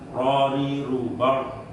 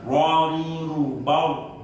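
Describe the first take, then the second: First: The R sound is made without lip rounding. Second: The R sound is made with rounded lips. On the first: "tidak melibatkan bibir yang bawah diangkat ke atas" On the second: "kan enggak seperti kita"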